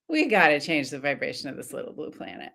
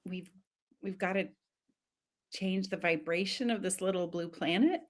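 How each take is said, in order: First: It is said in a casual tone. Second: It is said in a confused tone.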